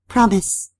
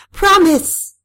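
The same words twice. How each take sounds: First: Higher, controlled demand; restrained insistence; firm demand. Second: High, loud shouted demand; explosive, commanding cry. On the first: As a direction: ask for a promise firmly, without shouting. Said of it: "I said". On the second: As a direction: shout it as an order. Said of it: "I shouted". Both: A narrator's reading.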